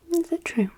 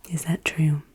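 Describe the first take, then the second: First: Tiny high put-on voice; playful high-pitched repeat; high-pitched question. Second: Whispered question. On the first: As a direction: ask it way up high. Same question in squeaky repeat. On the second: Acted. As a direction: ask it in a hushed whisper. Whispered quiz question repeated.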